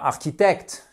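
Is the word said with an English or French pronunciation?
French. The word is said with French pronunciation. The speaker calls it wrong. "c'est pas architecte"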